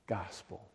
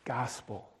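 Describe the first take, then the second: First: The word "Gospel." dropped low and soft, almost to a hush; "Gospel." said low and hushed, trailing off; quiet. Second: Said in the usual way. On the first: Shown as a demonstration. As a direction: let "Gospel." fade away softly at the bottom of the voice. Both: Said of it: "And I began to speak".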